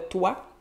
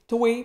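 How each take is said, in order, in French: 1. Elle se prononce avec la prononciation standard. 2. Elle se prononce avec la prononciation populaire familière.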